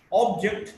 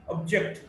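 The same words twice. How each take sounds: First: "object" as OB-ject; stress on first syllable. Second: "object" as ob-JECT; weak start, strong JECT in "object"; stress on second syllable. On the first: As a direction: hit the OB of "object". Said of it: "stressed in the first syllable". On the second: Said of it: "stressed in the second syllable". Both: Shown as a demonstration.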